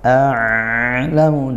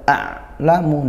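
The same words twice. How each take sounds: First: The ain flows on with too much voice. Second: The ain is pressed and held very hard. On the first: "tidak juga a'lamu, tidak sampai ngalir seperti itu" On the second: "tidak sampai a'lamu, tidak ditekan banget"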